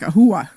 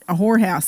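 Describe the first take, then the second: First: It is said in a Sopranos-style accent. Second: It is said in a plain everyday accent. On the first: "That's how they would say it with their accent" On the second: "they didn't say it like a whorehouse"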